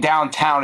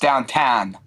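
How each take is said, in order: First: The vowels have a standard American 'ow' sound. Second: The vowels are flattened toward an 'ah' sound. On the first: "instead of saying downtown" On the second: "it's downtown. See that that A H"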